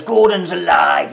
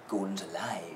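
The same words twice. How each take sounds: First: Slow, loud booming shout; really loud. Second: Low, soft hushed line; really quietly. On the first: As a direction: bellow the line out. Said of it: "like, really loud". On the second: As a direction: say it almost under the breath. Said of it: "He says it really quietly". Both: Retold or imitated.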